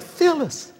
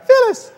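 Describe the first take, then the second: First: A first, milder high call of the name; Keith's voice. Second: Very high, loud squeal of "Phyllis", falling at the end; Keith's high voice. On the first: Husband first calls wife Phyllis, slightly high. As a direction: start the name higher than usual. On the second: Husband squeals his wife's name mid-meal, very high. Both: Retold or imitated. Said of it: "he's got that high voice".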